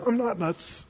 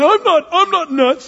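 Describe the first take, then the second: First: Softer, plain calm denial; just state it, unbothered. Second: High, loud, slow whiny protest; defensive protest. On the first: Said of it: "You can say it like that". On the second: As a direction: protest too much, shrill with offense. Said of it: "Don't just say". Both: Shown as a demonstration.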